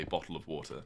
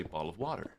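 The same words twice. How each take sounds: First: British accent. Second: American accent. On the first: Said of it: "the way a British person would say". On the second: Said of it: "American would say". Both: Shown as a demonstration.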